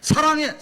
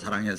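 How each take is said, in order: First: It is said strongly and forcefully. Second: It is said plainly and softly.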